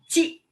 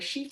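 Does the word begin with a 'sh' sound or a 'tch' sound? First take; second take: tch; sh. First: The word begins with a 'tch' sound. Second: The word begins with a 'sh' sound. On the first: The speaker calls it right. "c'est de prononcer che comme cha cha cha" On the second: The speaker calls it wrong. "ne prononcez pas surtout euh"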